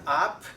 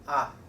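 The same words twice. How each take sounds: First: The final p is released with a puff of air. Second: The final p is held without releasing air. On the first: The speaker calls it wrong. "This is not up" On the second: The speaker calls it right. "but up, up. We cannot release it"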